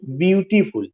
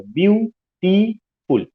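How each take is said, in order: First: Said in the usual way. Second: Slow, higher "ब्यूटीफुल" broken into ब्यू, टी, फुल; teacher dividing "ब्यूटीफुल" slowly as ब्यू... टी... फुल; syllable by syllable. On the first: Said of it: "ब्यूटीफुल में तीन syllable". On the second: Shown as a demonstration. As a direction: draw out "ब्यूटीफुल" in three separate beats with gaps. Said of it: "तीन syllable आया हुआ है".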